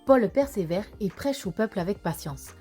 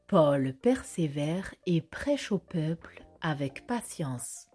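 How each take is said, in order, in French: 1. La phrase est prononcée très rapidement. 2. La phrase est prononcée lentement. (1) "encore plus vite?" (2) "Répétons-la lentement"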